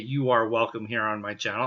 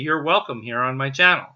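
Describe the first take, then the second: First: The words you are are said fully and separately. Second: The words you are are joined into one syllable. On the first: The speaker calls it wrong. "I'm not going to say you are welcome here on my channel" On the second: The speaker calls it right. "I'm going to say you're welcome here on my channel"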